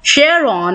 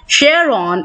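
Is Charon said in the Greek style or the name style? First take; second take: name style; name style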